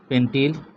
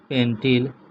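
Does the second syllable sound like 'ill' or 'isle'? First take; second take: ill; ill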